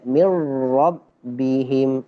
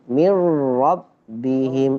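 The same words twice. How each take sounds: Both takes have the same delivery.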